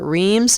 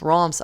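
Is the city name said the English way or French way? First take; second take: English; French. First: The name is said with an English pronunciation. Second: The name is said with an attempted French pronunciation. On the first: "Sometimes we call it Reims" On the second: "I'm going to butcher it if I try to say Roms. I know I'm saying it wrong"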